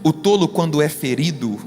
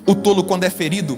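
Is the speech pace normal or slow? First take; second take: slow; normal. First: It is spoken more slowly and deliberately. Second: It is spoken at a normal speed.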